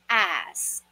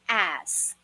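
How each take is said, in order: First: The s sound comes before the k sound. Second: The s sound comes before the k sound.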